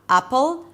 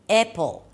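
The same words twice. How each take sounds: First: The first vowel is a back 'ah' sound. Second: The first vowel is a closer 'eh' sound. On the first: "so it doesn't sound like a" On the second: "so it doesn't sound like e"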